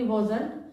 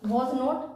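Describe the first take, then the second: First: It is said as one short contracted word. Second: It is said as two separate full words. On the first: The speaker calls it right. "वॉजंट बोल देंगे" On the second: The speaker calls it wrong. "वॉज नॉट ना बोल के"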